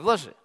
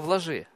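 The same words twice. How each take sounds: First: It is said in a harsh, challenging tone. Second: It is said in a gentle, caring tone. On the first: The speaker is taunting the listener. The speaker calls it wrong. "он не с таким тоном говорит" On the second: The speaker cares for the listener. The speaker calls it right. "как он с кротостью его обличает"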